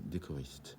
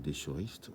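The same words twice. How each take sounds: First: The ch is said as a hard k sound. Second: The ch is said as a soft sh sound. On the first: The speaker calls it right. "on dit" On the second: The speaker calls it wrong. "on ne dit pas"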